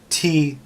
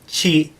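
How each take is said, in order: First: The syllable starts with a plain 't' sound. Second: The syllable starts with a 'ch' sound. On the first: The speaker calls it wrong. "it would be pronounced" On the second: The speaker calls it right. "But it's not. It's pronounced chi"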